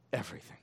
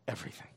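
First: Said in the usual way. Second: Low answer. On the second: Shown as a demonstration.

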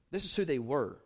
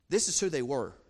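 No difference in how they are said.

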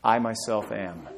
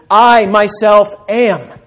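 First: Quiet, slow and hushed; a gentle hushed answer; soft reveal. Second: Loud, high and very slow; booming declaration. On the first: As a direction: let it land softly, slowly. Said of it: "can you guess what it is?". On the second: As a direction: proclaim each word like God's own name. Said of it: "Greek translation of the Old Testament". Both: Shown as a demonstration.

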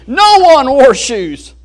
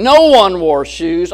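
First: Excited version. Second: Gloomy version. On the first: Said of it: "all excited". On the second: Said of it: "negative attitude". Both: Acted.

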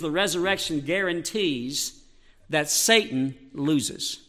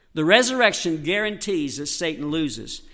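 First: Softer, slower, drawn out; slow and quiet. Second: Said in the usual way. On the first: Shown as a demonstration. Preacher to congregation, first time, slow and quiet. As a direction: let each word sink in slowly.

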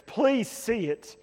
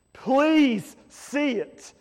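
First: Gentle plea. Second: Slow, higher, louder pleading; urgent plea. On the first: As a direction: ask them gently to understand. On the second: Preacher urging the congregation to finally see it, slow and pressing. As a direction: beg it out with rising urgency. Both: Real, not acted.

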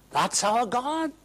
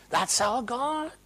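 First: High declaration of faith; proclaiming. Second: Slower echo. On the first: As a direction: announce it with pride. Repeated proclamation. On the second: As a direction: let it settle, slower. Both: Acted.

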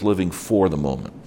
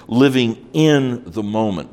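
First: "for" leaned on as the contrast word; stress on FOR. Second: "in" pitched up and leaned on; stress on IN. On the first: Preacher defining existentialism against living in it, stressing "for". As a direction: make "for" stand out from "the moment". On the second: Preacher setting "in" against "for" the moment, stressing "in". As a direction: make "in" stand out from "the moment". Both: Shown as a demonstration.

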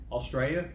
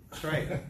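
First: Australia said in full, as a question; questioning, fully pronounced Australia; puzzled outsider's Australia. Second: Australia squashed to "Straya"; laughing correction, Australia clipped to "Straya"; Aussie pronunciation. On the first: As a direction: say Australia with every syllable, rising. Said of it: "And they say". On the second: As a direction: say Australia as a local, swallowing the first syllable. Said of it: "And so it's different". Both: Retold or imitated.

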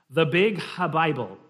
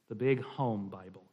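First: Louder Scottish verse reading; slight Scottish accent. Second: Said in the usual way. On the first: Shown as a demonstration. Reading a Scots poem to the group, slight Scottish accent. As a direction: sound it out in light Scots. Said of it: "a slight Scottish accent".

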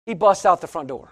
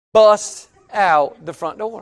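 First: Said in the usual way. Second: "busts out" stretched slow and set apart; emphatic repeat. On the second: Real, not acted. Preacher repeats friend's wild exit, "busts" drawn out. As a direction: lean hard and long on "busts", then "out".

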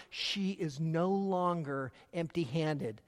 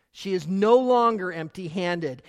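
First: Softer and slow; hushed, reflective statement; quiet. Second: Louder, stress on no; no hit hard and louder; emphatic. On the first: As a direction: let it land softly, slowly. Repeated key line, quiet take. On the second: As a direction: proclaim it, punching no. Repeated key line, proclaimed take. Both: Shown as a demonstration.

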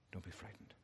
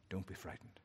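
First: Even softer, nearly breathed out; fading to a whisper. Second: Low, hushed words of comfort; soft reassurance. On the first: God repeating comfort to Jeremiah, dying away to near silence. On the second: God softly comforting the frightened prophet, hushed. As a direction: soothe him gently, almost under the breath. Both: Acted.

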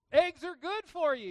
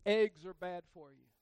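First: High, loud mock health slogan; loud mock slogan, pitched high. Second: Louder, punchy mock health slogan; mock slogan delivered loud. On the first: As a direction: shout it like a headline. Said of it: "You ever heard that?". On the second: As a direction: bark it like a headline. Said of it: "Have you ever heard this?".

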